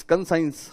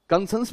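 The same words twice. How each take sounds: First: कंसाइंस with "ai" in the second syllable; corrected pronunciation. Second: कंसेंस with a short "sens" ending; alternative pronunciation. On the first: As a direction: say कंसाइंस so it ends like "signs". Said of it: "मेरा pronunciation problem है". (कंसाइंस, 'साइंस' जैसी ध्वनि के साथ) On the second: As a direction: say कंसेंस with "e", no "ai" glide. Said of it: "कंसेंस भी बोल सकते हैं". (कंसेंस, अंत में छोटा 'सेंस') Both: Shown as a demonstration.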